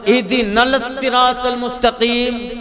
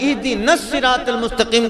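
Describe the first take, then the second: First: The l is clearly pronounced before the s. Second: The l merges into the following s sound.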